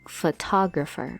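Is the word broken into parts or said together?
together. The word is said smoothly all together. The speaker calls it right. "It is pronounced together as photographer"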